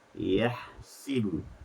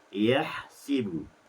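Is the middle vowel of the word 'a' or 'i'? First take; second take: i; i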